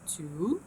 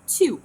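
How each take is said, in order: First: The pitch rises across the word. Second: The pitch falls across the word. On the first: "بينما هاي النوع الثاني شلون يكون؟" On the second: "ال falling intonation شلون كانت تكون؟"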